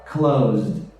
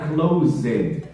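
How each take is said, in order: First: The ending is a short z-d sound. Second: The ending is said as a full extra syllable. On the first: The speaker calls it right. "closed é como se fosse um Z e um D" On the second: The speaker calls it wrong. "não é closed"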